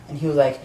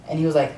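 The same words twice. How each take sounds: The two takes are said the same way.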